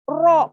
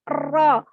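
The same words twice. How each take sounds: First: The vowel is said with rounded, pushed-out lips. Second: The vowel is said with flat, unrounded lips. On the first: The speaker calls it wrong. "maka bukan kemudian ro" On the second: The speaker calls it right. "tapi ro"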